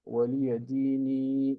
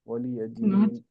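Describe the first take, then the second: First: The word ends with a long 'ee' vowel. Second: The word ends on the consonant 'n'. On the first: The speaker calls it wrong. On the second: The speaker calls it right.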